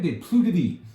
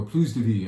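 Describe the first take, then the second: First: "Plus" said "plu", silent final s, meaning no more life; French "plus" said without the s. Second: "Plus" said "pluz", final s sounded, meaning more life; "Plus" voiced with a z sound, the positive reading; French "plus" said with the s. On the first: Wine owner naming the estate, "Plus" with silent s. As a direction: owner saying "des Plus de Vie" with "Plus" as "plu". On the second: Wine owner rephrasing the estate name, "Plus" with a sounded s. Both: Shown as a demonstration. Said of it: "if you want to say it more positively".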